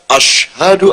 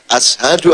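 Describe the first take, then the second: First: The middle consonant is a 'sh' sound. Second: The middle consonant is a plain 's' sound. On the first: The speaker calls it right. "seharusnya kan ashadu alla gitu kan" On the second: The speaker calls it wrong. "Dia hanya ashadu ala kanik"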